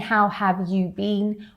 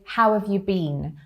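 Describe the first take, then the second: First: The word you is pronounced fully. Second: The word you is reduced to a y. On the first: "the way that it is like formally" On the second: "that you sounds a bit more like a y"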